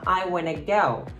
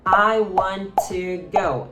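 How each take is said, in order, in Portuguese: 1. As palavras são reduzidas e ditas juntas. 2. Cada palavra é dita completa e separadamente. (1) "Elas vão falar" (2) "elas não vão falar"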